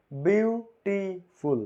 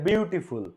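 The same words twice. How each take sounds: First: বিউটিফুল drawn out slowly in three separate syllables. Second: Said in the usual way. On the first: Shown as a demonstration. Teacher counting out syllables for students, বিউটিফুল split slowly in three. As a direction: break বিউটিফুল into biu, ti, ful. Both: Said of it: "তিন syllable".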